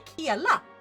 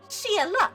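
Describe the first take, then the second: First: The word begins with a hard k sound. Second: The word begins with a soft sh sound. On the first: The speaker calls it wrong. "We don't say kiela" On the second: The speaker calls it right. "we say shiela"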